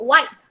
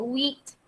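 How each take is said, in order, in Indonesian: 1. Vokalnya adalah diftong 'eye'. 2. Vokalnya adalah 'ee' panjang. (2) "Kamu tak sebut wheat"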